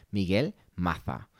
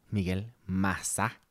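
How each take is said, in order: First: Slow "Maza" said "Matha" with a lisp; "Maza" with a Castilian th sound; Spanish pronunciation. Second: Slow "Maza" said "Masa"; "Maza" with a plain s; Venezuelan pronunciation. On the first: For the Spaniards, mock Castilian "Maza". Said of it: "para los españoles". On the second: Host names himself the Venezuelan way. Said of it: "yo soy su host". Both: Shown as a demonstration.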